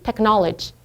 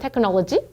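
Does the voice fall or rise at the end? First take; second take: fall; rise. First: The pitch falls at the end of the word. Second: The pitch rises at the end of the word. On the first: This is how native speakers say it. The speaker calls it right. "이렇게 말하는 게 이제 영어인데" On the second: Native speakers find this awkward. The speaker calls it wrong. "끝이 올라가거든요"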